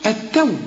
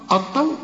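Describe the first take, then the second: First: The t is light, without emphatic quality. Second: The t is heavy, with emphatic velarized quality. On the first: The speaker calls it right. "شوف التو" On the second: The speaker calls it wrong. "ما تقولش بقى التوراة، الطو"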